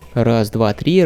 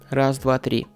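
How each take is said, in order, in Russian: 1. Низкие частоты голоса повышаются. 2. Низкие частоты голоса срезаются. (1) "в режим повышения низких частот" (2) "вы можете слышать, как микрофон срезает низкие частоты"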